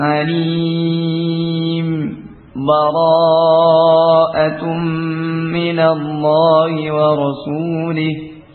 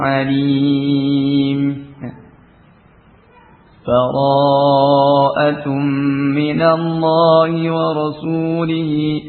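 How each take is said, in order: First: A brief pause without breath between words. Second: A full stop with a breath between words. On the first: "saktah dengan uh, berhenti sejenak ... dengan tanpa nafas" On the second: "Yang pertama dengan waqaf"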